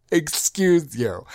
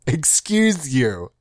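First: Sassy retort. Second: Slow, drawn-out put-down; sassy retort. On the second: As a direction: let it land slowly, with sass. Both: Acted.

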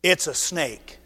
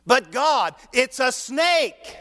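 First: Said in the usual way. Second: Higher, slow, laughing objection; laughing protest. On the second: Acted. Moses laughing again as he objects to God. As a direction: stretch it out, chuckling in disbelief.

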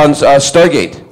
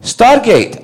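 First: Said in the usual way. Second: Very high questioning echo of the name; incredulous dad. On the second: Retold or imitated. Dad hearing his son's show name, incredulous. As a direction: echo it sharply higher, imitating a puzzled dad.

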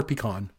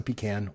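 First: "pecan" said pee-KAHN; second syllable of "pecan" sounds like "kahn"; alternative pronunciation. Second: "pecan" said pee-CAN; second syllable of "pecan" rhymes with "can"; Canadian pronunciation. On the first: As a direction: say "pecan" with an open "ah". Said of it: "if I'm saying that right". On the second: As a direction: say "pecan" with the a of "cat". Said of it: "it's a Canadian way to say it". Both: Shown as a demonstration.

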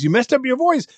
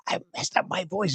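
First: Mock astonished question, much higher; surprised echo. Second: Imitating a blown voice, softer and strained; messed-up voice. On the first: Fairgoer to hoarse performer, high surprised voice. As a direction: echo it back as an incredulous fairgoer. Nosy fairgoer's reaction retold. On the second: Hoarse performer explaining to fairgoer, weak worn-out voice. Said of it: "I blew my voice out".

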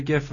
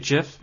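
First: "gif" with a hard G, as in "gift". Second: "gif" with a soft G, said like "jiff". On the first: Host describing the Bud Selig image, hard-G "gif". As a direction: start "gif" with the G of "go". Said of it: "Is that how you say it?". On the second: Host guessing how guest says it, soft-G "gif". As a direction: start "gif" with a J sound. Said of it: "How would you say it?". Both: Shown as a demonstration.

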